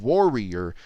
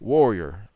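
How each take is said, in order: First: The middle R is clearly pronounced. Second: The middle R is nearly dropped, like a W. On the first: "You're not saying warrior" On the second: "you're almost saying warrior. Almost like you're completely eliminating the R, or at least turning it into a W"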